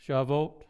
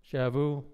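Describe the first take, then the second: First: "Shavuot", ending on an audible T, as a question; T sounded in SHAVUOT. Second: "Shavu", the final T left silent. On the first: Trying out the Hebrew name for Pentecost, T sounded. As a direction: say "Shavuot" with the final T pronounced. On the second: Trying out the Hebrew name for Pentecost, T silent. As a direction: say "Shavu" ending on the vowel, no T. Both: Shown as a demonstration. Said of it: "T is silent".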